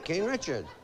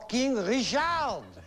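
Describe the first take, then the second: First: It is said in a plain English accent. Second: It is said in a French accent.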